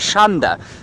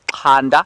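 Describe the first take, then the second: First: The name is said with a Shangaan pronunciation. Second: The name is said with a Zulu pronunciation. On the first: "If it were to say it in the Shangaan pronunciation" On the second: "if we were to say it in the Zulu pronunciation"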